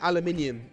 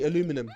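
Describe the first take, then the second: First: The word is said with five syllables. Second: The word is said with four syllables. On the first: This is the British way of saying it. The speaker calls it right. "you don't say aluminium" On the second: This is the American way of saying it. The speaker calls it wrong. "You say aluminum"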